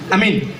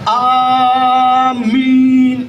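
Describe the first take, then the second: First: The first vowel is cut short. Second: The first vowel is drawn out long. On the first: Safe. The speaker calls it wrong. "Ya aman ke mana ji?" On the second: Accept our prayer. The speaker calls it right. "A panjang, min pa"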